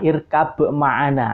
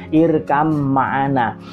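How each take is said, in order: First: A bouncing b is heard before the m. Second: The b merges into one long m sound. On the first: The speaker calls it wrong. "harusnya dibaca qalqalah irkab ma'ana" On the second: The speaker calls it right. "langsung masuk ke huruf mimnya"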